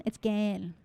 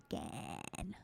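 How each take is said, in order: First: Said in the usual way. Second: Gann in a broad Australian accent, low and soft. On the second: Shown as a demonstration. Host trying out a judge's name, Australian accent. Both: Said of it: "I can say it with my Australian accent".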